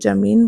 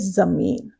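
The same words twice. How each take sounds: First: The word begins with a 'j' sound. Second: The word begins with a 'z' sound. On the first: "आप इसको जमीन बोलेंगे" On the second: "जब हम यहाँ ये बिंदी लगा के लिखेंगे तो हम इसे बोलेंगे"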